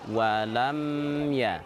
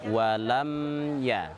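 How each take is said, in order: No difference in how they are said.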